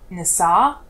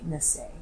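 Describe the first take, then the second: First: The word ends in a full open 'ah' vowel. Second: The word ends in a soft, reduced vowel. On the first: The speaker calls it wrong. "it's never going to be" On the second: The speaker calls it right. "changing the sound of the A to a soft A"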